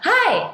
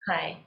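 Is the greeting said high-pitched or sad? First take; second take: high-pitched; sad. First: It is said suddenly at a high pitch. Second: It is said in a flat, sad tone. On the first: It would shock the listeners. "Tiba-tiba kan, high pitch" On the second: The speaker seems unmotivated. "I come to you in a very somber mood, sad mood"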